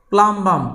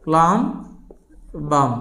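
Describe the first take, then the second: First: Said in the usual way. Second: plum, a clear pause, then বাম; split by syllable. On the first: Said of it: "C level ভাগ করে করে". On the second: Shown as a demonstration. Teacher showing students the syllables of the Latin name, split by syllable. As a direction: say plum and বাম as two separate pieces. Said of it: "C level ভাগ করে করে কিন্তু উচ্চারণ".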